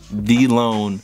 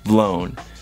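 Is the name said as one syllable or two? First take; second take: two; one. First: The letter V is said apart from 'loan'. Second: The V is blended into a single syllable. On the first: "it's V-loan, not Vlown" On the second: "I didn't feel like saying V-loan every fucking time I meant to say Vlown"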